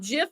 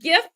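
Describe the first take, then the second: First: The word starts with a soft j sound. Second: The word starts with a hard g sound. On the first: It sounds like the peanut butter brand. The speaker calls it wrong. "is a peanut butter" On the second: It sounds like the start of graphic. The speaker calls it right.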